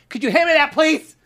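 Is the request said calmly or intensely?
intensely. It is said in an intense, hysterical way.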